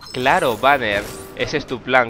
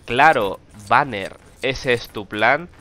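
First: Banner is said as a form of address. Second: Banner stands alone as its own statement. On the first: Banner is the one being spoken to. The speaker calls it wrong. "Y lo dice la que le pone la voz a Widowmaker como" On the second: Banner himself is the plan. The speaker calls it right. "está claro que la frase es"

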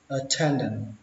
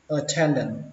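First: The final t sound is dropped. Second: The same.

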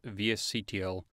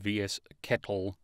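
First: The ending is spelled out letter by letter. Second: The ending is said as the word kettle.

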